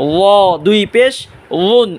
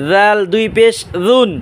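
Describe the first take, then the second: First: "ওয়া" with a heavy, rounded emphatic dh; thick DH. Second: "জাল" and "জুন" with a soft dh, tongue tip at the front teeth; "জুন" lightly, with a voiced th. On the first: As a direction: thicken "ওয়া" and "উন", tongue tip at the front teeth. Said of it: "মোটা আওয়াজে". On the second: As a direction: soften the first sound of "জাল" to a light dh. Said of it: "নরম আওয়াজে". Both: Shown as a demonstration.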